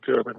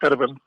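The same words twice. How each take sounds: First: The name is said with English sounds. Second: The name is said with Dutch sounds. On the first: This is an easier version people use. "most people won't be able to pronounce that, so they just call me Gerben" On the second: This is the original pronunciation. "you pronounce it in the Dutch way as Gerben"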